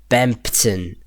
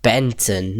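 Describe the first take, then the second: First: "Bempton" slowly, with the mp sounded; clearly Bempton. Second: "Benton", the middle reduced to n before the t; sounds like Benton. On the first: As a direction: spell out the m and p in "Bempton". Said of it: "not Bempton". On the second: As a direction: say "Benton" with a plain n and no mp. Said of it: "It sounds like Benton". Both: Shown as a demonstration.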